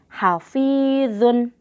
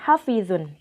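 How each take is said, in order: First: The vowel in 'fi' is held long. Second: The vowel in 'fi' is held short. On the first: The speaker calls it right. "Dibacanya panjang fi-nya. ... tapi hafizun" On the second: The speaker calls it wrong. "jangan dibaca pendek, bukan hafizun"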